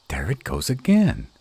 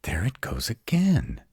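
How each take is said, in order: First: Alarmed. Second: Hushed, breathy whisper. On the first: Hears strange noise in cave. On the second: To partner in the dark cave, tense whisper. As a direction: whisper so the intruder won't hear. Hears noise again, hushes. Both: Acted.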